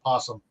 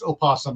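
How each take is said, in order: First: The word begins directly with the 'p' sound. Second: The word begins with an extra 'o' syllable. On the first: The speaker calls it wrong. "not possum" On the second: The speaker calls it right. "the proper pronunciation is opossum"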